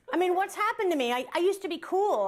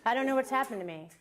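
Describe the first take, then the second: First: High-pitched, exasperated outburst; exasperated lament. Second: Said in the usual way. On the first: Acted. Comic bemoaning lost cool to the audience, exasperated. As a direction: wail it in comic dismay at yourself.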